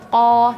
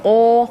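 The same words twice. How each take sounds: First: The lips stay still without rounding. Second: The lips move and round on the vowel. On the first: The speaker calls it right. "kalau kita melafalkan huruf qaf, jangan sampai uh, jari ini bergerak" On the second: The speaker calls it wrong. "jangan ko. Kalau ko berarti uh, apa? Ini bergerak sedikit ya"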